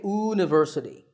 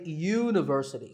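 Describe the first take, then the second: First: The word begins with a plain vowel sound. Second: The word begins with a y consonant sound. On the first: The speaker calls it wrong. "We don't say" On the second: The speaker calls it right. "that first sound is a y sound"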